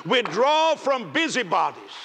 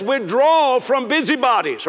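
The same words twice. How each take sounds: First: "Withdraw from busybodies" again, slower and softer, still high; slow softer repeat. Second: Drawn-out, higher and louder scripture punch; slow emphatic quote. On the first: Preacher savoring the verse a second time, softly. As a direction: let the verse linger, hushed. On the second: Preacher driving home a verse to his congregation. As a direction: stretch "Withdraw from busybodies" slowly, leaning on Withdraw. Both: Shown as a demonstration. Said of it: "Oh, that'll preach".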